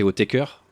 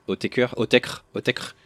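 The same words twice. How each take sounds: First: the band's name said French-style, ending in a full "-keur"; tentative pronunciation. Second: the name repeated slowly, sliding from "o-té-keur" to "o-tèkr"; trying out pronunciations. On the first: Unsure how the band's name is pronounced, offered as "o-té-keur". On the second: Testing the band's name aloud, shortened to "o-tèkr". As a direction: try the name with the ending squeezed to "-kr". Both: Shown as a demonstration. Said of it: "je sais pas comment on prononce ça".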